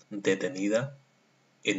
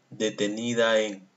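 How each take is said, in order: First: A clear pause separates the two words. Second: The two words run together without a pause. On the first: The speaker calls it right. "¿Te das cuenta de la pausa?" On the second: The speaker calls it wrong. "No lo lee así"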